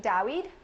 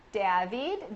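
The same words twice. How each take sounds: First: "David" tried as "Dah-weed", rising; second pronunciation attempt. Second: "David" tried foreign-style, ending in a long "veed"; trying a pronunciation. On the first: Host guessing at a viewer's name, questioning "David" as "Dah-weed". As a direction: ask "David" with a w-like middle, unsure. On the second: Host guessing at a viewer's name, tentative foreign "David". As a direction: try "David" as "Dah-veed". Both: Real, not acted.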